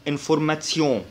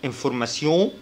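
First: انفورماسيون, a ts before the yon; German pronunciation. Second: انفورماسيون, plain s before the yon; French pronunciation. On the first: Teacher comparing languages, German ts ending on انفورماسيون. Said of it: "بالألماني بيتنطق تسيون". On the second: Teacher comparing languages, French s ending on انفورماسيون. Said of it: "بالفرنساوي بيتنطق سيون". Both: Shown as a demonstration.

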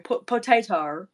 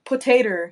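First: "potato" ending in "-tar"; mock Aussie "potato" with R ending; R tacked on. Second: Said in the usual way. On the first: Shown as a demonstration. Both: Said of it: "you tack on an R".

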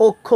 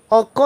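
First: অক্ষ starting on a closed o, "okkho"; correct pronunciation. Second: অক্ষ starting on an open "aw", "awkkho"; wrong pronunciation. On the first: Teacher answers the question, অক্ষ pronounced "okkho". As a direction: round the first vowel of অক্ষ to o. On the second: Teacher shows what not to say, অক্ষ mispronounced "awkkho". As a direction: open up the first vowel of অক্ষ. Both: Shown as a demonstration. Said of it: "না বলে বলবো কি".

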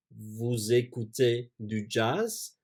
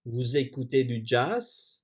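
First: Slow repeat. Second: Said in the usual way. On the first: Shown as a demonstration.

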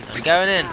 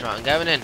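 First: Higher, louder battle cry; excited shout. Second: Said in the usual way. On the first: Real, not acted. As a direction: charge in shouting. Charging into the fight.

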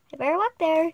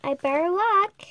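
First: Said in the usual way. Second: Whisper. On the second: Acted. Girl whispering to herself.

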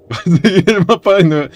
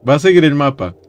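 First: Higher, breaking into laughter; laughing repeat. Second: Said in the usual way. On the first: Real, not acted. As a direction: say it through a helpless laugh. (repitiéndolo entre risas, más agudo)

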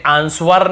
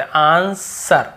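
First: 'आंसर' misread as aan-swar; wrongly sounded W. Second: 'आंसर' drawn out slowly as aan-sar; silent W. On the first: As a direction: put an audible w after the s in 'आंसर'. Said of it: "हमें आंसर नहीं पढ़ते". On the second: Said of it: "बस आंसर". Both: Shown as a demonstration.

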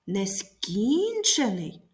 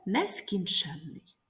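First: Нескінчений, slowly, with a long raised КІН; Нескінчений with early stress and a light suffix. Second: Нескінченний with late stress on ЧЕН; нескінченний with a stressed ЕНН suffix. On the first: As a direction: stretch and hit КІН in Нескінчений. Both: Shown as a demonstration. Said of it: "зверни увагу на наголос у словах".

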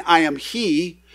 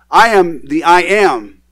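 First: Said in the usual way. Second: "I am the I am" slow and loud, each "I am" weighted; "I am the I am" as a weighty, deliberate title; emphatic I AM. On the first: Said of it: "He's not just saying". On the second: Retold or imitated. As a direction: declare "I am the I am" slowly, punching both "I am"s. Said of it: "He's saying".

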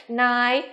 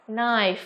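First: Knife with a separate K sound before the N; K pronounced. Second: Said in the usual way. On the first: Shown as a demonstration. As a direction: say "knife" wrongly as "k-nai". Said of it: "không được phát âm là gì". (đọc sai "knife" thành "k-nai", bật âm k) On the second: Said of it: "mà phải là gì nào?".

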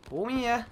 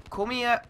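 Both takes have the same delivery.

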